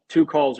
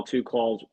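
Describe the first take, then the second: First: "two calls" said again louder and higher, punching "two"; emphatic repeat. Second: Said in the usual way. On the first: Real, not acted. Pushing the point to the chat, "two" punched louder. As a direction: hammer "two" home the second time. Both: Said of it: "Whether it's one call".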